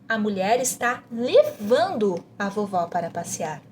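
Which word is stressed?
levando. The emphasis falls on the word levando. "você vai enfatizar levando"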